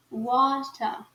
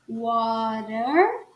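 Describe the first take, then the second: First: "water" with crisp T and falling "ah" ending; British, silent R. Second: "Water" slow, tapped T, curled R, rising; American R. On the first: Teacher contrasts the two accents, British without R. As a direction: drop the R in "water", British style. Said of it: "não fala o R no sotaque britânico". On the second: Teacher contrasts the two accents, American R. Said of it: "o R bem pronunciado no sotaque americano". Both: Shown as a demonstration.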